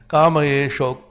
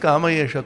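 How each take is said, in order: First: The word ends with an 'o' vowel. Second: The word ends with an 'a' vowel.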